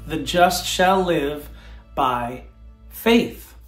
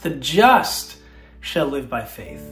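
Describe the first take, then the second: First: The word faith is stressed. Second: The word just is stressed.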